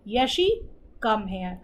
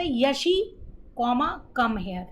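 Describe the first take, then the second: First: Short pause after "Yeshi", then "come here" lower; pause at comma. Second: Reads the word comma aloud between "Yeshi" and "come here"; comma read aloud. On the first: Teacher showing students the right way, a pause after "Yeshi". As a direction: silent beat where the comma sits after "Yeshi". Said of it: "वो हमें वहाँ पे pause देना होता है". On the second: Teacher showing students the wrong way, reading "comma" aloud. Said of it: "comma बोलने में ... नहीं बोलना होता है". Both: Shown as a demonstration.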